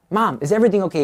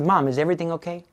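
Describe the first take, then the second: First: Higher, more urgent worried question; acted rising panic, calling to her; starting to freak out. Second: Quick, higher, concerned question; gently acted worry, hurried; retold concern. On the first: Son fearing for his weeping mother, acted alarm. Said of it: "He's starting to freak out". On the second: Son on the phone hearing mother's tears, concerned. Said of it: "He could hear the tears".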